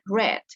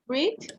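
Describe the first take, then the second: First: The vowel is short, like 'red'. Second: The vowel is long, like 'reed'. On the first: It is the past form of the verb. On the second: It is the present form of the verb.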